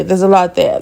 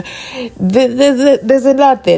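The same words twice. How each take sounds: First: Said in the usual way. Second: Emphatic exclamation. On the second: Acted. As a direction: throw it out with emphasis, like a teaser. Repeats phrase, first emphatic.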